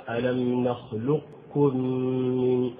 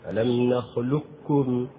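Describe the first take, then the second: First: "نخلقكم" chanted slowly with the qaf's elevation kept before the kaf; partial assimilation demo. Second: "نخلقكم" said slowly as "نخلكّم", one doubled kaf; slow recitation with pure kaf, no trace of qaf; full assimilation. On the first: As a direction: recite "نخلقكم" slowly so a trace of qaf stays. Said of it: "هكذا". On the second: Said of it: "ينطق به إدغاما كاملا". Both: Shown as a demonstration.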